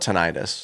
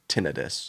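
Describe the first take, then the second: First: The word is said in a non-British way. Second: The word is said the British way. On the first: "I call it tinnitus" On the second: "the U K pronunciation is tinnitus"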